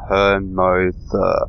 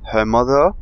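First: The name is said at a slow pace. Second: The name is said at a normal pace.

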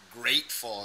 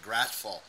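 First: The first vowel is long and full. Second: The first vowel is short and clipped. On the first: The speaker calls it right. "Same as grateful instead of gratful" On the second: The speaker calls it wrong. "instead of gratful"

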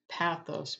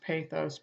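First: The first vowel is short, as in 'pat'. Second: The first vowel is long, as in 'pay'. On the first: This is the pronunciation commonly found. "instead of pathos, P-A-T-H-O-S" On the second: This is the older Greek pronunciation. "what I have from my Greek dictionaries is it was pronounced pathos, P-A-Y-T-H-O-S"

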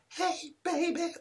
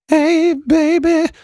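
First: It is said in a thin, weak voice. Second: It is said in a deep, full voice.

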